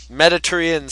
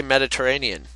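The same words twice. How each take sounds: First: "Mediterranean" said as "Medi-ter-ian", dropping the middle syllable; mangled Mediterranean. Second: "Mediterranean" with all syllables, "Medi-ter-RAY-nee-an"; correct Mediterranean. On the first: Retold or imitated. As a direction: clip "Mediterranean" to "Meditterian" like the teacher did. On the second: Shown as a demonstration. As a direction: say "Mediterranean" properly with full "ay-nee-an" ending. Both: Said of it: "He couldn't even say Mediterranean".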